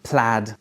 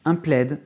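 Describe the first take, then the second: First: The vowel sounds like the 'a' in cat. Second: The vowel sounds like the 'e' in bed. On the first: The speaker calls it right. "avec le A de cat" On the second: The speaker calls it wrong. "en français, on lit le A I E"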